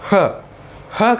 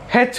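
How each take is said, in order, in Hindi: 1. सिर्फ़ एक छोटी, हल्की 'h' जैसी आवाज़ बोली जाती है। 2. अक्षर को उसके पूरे नाम से बोला जाता है। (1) "जब यही हैच वर्ड में जाता है तब हम उसको ह ह करके हम उसको पढ़ते हैं" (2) "जब ये हैच सिंगल रहता है तभी हम उसको हैच करके हम उसको पढ़ते हैं"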